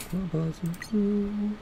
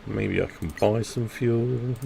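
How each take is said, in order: First: Asks "Can I buy some fuel?" much higher and slow; a small silly squeak of a question; squeaky high question. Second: Said in the usual way. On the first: Pretend. To teammates, pretending to beg for fuel, squeaky high voice.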